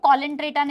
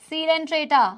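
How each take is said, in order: First: The word begins with a K sound. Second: The word begins with an S sound. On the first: The speaker calls it wrong. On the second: The speaker calls it right.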